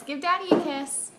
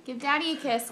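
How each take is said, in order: First: Quicker, brighter "Give Daddy a kiss"; eager baby talk. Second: Said in the usual way. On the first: Shown as a demonstration. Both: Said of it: "repeats request to baby".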